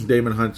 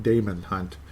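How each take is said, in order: First: Said in the usual way. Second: Damon said slowly as DAY-mun, not Damien; careful Damon. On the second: Shown as a demonstration. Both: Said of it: "Damon, not Damien".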